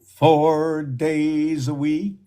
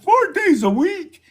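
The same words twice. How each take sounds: First: Said in the usual way. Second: Much higher, amazed disbelief; surprised. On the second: Real, not acted. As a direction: say it like you can't believe it. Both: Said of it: "Oh my God".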